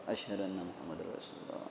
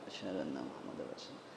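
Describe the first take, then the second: The two takes are said the same way.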